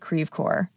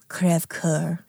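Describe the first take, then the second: First: The name is said with an American pronunciation. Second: The name is said with a French pronunciation. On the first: This is how people in the town say it. "we pronounce it Crèvecœur. That's Midwestern French" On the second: This is the name's original form. "It's a French name"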